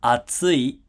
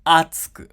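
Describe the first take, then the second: First: "atsui" said slowly, pitch highest on tsu; "atsui" peaking in the middle; accent on tsu. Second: "atsuku" starting high and loud on a; "atsuku" with the pitch peak up front; accent on a. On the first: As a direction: lift "tsu" in "atsui", then fall. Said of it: "tsu has the highest pitch in the word". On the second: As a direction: punch the first sound of "atsuku" high, then drop. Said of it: "a has the highest pitch in the word". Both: Shown as a demonstration.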